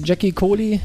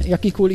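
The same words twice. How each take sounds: First: "Jackie Kohli" with an English dzh sound at the start; "Jackie" opening like English "jack". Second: "Jackie Kohli" with a y sound at the start; "Jackie" opening with "ya", like German "ja". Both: Shown as a demonstration. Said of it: "wie man den Namen ausspricht".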